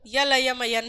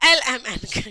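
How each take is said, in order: First: Each letter name begins with a 'y' sound. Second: Each letter name begins with a plain vowel. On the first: The speaker calls it wrong. "यल यम यन नहीं" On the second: The speaker calls it right. "एल एम एन कहना है"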